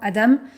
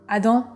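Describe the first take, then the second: First: The name is said with a Canadian accent. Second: The name is said with a French accent.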